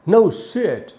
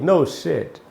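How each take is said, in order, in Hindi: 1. यह सवाल की तरह बोला जाता है। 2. यह बयान की तरह बोला जाता है। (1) "आवाज में क्वेश्चन वाला भाव रखना है" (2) "उसका आंसर भी वही है"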